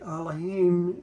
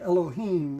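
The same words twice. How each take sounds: First: It is pronounced the Hebrew way. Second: It is pronounced the English way. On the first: "But Elohim is uh, the Hebrew pronunciation" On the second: "this is the way in English we would say Elohim"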